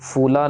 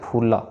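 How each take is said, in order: First: It starts with an f sound, lips apart. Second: It starts with a breathy p, lips touching. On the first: The speaker calls it wrong. "फूला नहीं कहना, फ नहीं कहना" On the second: The speaker calls it right. "इसमें हमारे दोनों lips touch होने चाहिए"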